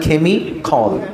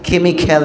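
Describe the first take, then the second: First: The ending sounds like 'khol'. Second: The ending sounds like 'kal'. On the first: The speaker calls it right. "উচ্চারণটা কেমিখল" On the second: The speaker calls it wrong. "কেমিক্যাল না"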